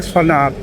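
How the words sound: The name is pronounced the Thai way. This is how people back home would read it. "ถ้าเป็นบ้านเราเขาคงอ่านว่า"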